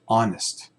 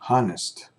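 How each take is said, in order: First: The word begins with a vowel, no H. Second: The word begins with an audible H sound.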